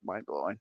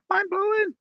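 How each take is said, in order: First: Said in the usual way. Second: Mind-blowing squeaked much higher; emphatic high repeat. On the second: Shown as a demonstration. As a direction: pitch Mind-blowing up in amazement. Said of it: "repeated emphatically".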